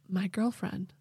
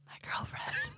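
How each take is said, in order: First: It is spoken in a normal, voiced tone. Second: It is spoken in a breathy whisper. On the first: The speaker calls it wrong. "That's not a whisper" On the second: The speaker calls it right. "There we go"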